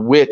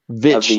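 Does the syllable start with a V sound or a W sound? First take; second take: W; V. First: The syllable starts with a W sound. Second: The syllable starts with a V sound. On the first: The speaker calls it wrong. "not a witch" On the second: The speaker calls it right. "that's pronounced like a vitch"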